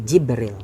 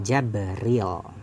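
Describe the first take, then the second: First: The first vowel is "i". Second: The first vowel is "a". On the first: "kasril jim war ra'i" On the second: "ia membaca fathah al jima"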